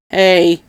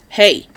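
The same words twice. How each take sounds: First: Mild growled warning, not pitched up. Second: Short barked reprimand; quick warning bark, a little raised. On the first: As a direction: growl it as a reprimand. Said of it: "Doc growled". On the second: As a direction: bark it to pull him up sharply. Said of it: "Doc barked". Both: A narrator's reading.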